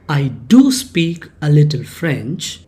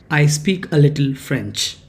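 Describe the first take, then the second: First: "do" leaned on as the strongest word; emphatic "do" to make the claim strong; stress on DO. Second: Said in the usual way. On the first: Shown as a demonstration. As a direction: hit "do" firmly, then let the sentence fall. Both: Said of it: "here you are emphasizing that".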